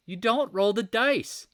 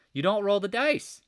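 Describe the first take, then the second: First: DON'T punched higher, louder and slower; emphatic slow repeat of the warning; stress on DON'T. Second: Said in the usual way. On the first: Acted. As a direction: hammer the word don't.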